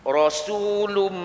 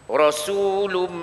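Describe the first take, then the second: The two takes are said the same way.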